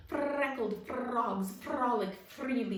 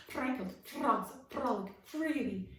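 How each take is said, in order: First: Slow, loud, over-enunciated recital; actor's diction drill. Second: Loud, carefully articulated repeat; repeated diction drill. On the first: Frog actor practising clear speech, slow and loud. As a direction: practise it like a stage tongue twister. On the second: Frog actor repeating his exercise, loud and careful. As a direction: run the twister again, precisely. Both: Acted. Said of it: "he recited over and over".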